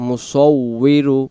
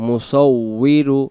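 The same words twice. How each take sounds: No difference in how they are said.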